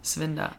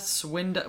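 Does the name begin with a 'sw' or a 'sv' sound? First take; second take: sv; sw. First: The name begins with a 'sv' sound. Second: The name begins with a 'sw' sound. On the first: The speaker calls it right. "It is W, but they pronounce it like a V" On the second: The speaker calls it wrong. "I keep on wanting to say like Swilda"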